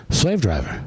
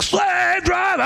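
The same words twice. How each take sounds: First: Said in the usual way. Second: High, drawn-out full scream. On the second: Retold or imitated. Jail singer told to scream it into the phone, screamed. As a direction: scream it long like a hardcore frontman. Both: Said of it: "Scream it".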